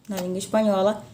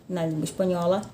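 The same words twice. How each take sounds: No difference in how they are said.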